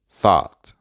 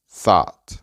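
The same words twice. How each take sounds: No difference in how they are said.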